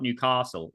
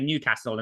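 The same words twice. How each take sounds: First: It is said the southern way. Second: It is said the local northern way. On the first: The speaker is an outsider to the city. The speaker calls it wrong. "and not Newcastle" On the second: The speaker has lived in the city. The speaker calls it right. "you can tell I lived in Newcastle, even though I'm a Southerner, because I say Newcastle"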